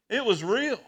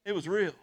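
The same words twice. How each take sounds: First: "real" pushed higher and louder, rising; emphatic repeat. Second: Said in the usual way. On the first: Real, not acted. Pastor insisting to the church his vision was real, emphatic. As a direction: insist on "real" the second time.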